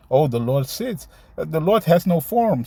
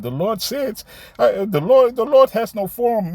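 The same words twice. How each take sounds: First: Said in the usual way. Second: High, loud mocking imitation of a visitor; mimicking a camp visitor's claim, high and mocking. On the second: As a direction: parrot his claim back in a much higher, louder mocking voice. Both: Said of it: "Somebody came, uh, last week to the camp".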